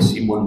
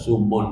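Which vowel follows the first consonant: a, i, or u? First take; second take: i; u. First: The first vowel is a front i sound. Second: The first vowel is a rounded u sound. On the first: "simun boleh" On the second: "sumun boleh"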